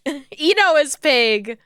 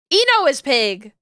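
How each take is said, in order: First: Slow and giggling at her own mistake; amused, drawn-out self-correction; laughing, slow. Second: Said in the usual way. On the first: Real, not acted. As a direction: laugh it out slowly, sheepish. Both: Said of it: "I'm getting them all wrong".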